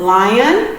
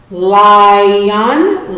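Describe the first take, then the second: First: Said in the usual way. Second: "Lion" stretched as li and on; careful split read of "Lion"; syllable split demo. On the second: Shown as a demonstration. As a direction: say "Lion" slowly in two parts. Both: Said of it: "The split in between the vowels".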